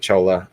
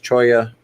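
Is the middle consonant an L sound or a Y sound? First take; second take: L sound; Y sound. First: The middle consonant is an l sound. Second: The middle consonant is a y sound. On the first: The speaker calls it wrong. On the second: The speaker calls it right. "Pronounced Choya"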